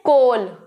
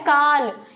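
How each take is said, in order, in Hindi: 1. स्वर की ध्वनि 'oh' जैसी है। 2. स्वर की ध्वनि 'ah' जैसी है। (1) "इसको सब कहते हैं कोल" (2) "नहीं पर ये होता है काल"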